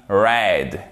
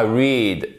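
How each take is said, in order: First: "read" said like "red", past participle; "read" rhymes with "bed"; correct read. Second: "read" said like "reed", long ee sound; "read" rhymes with "need", the mistake; wrong read. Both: Shown as a demonstration. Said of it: "Et pas read".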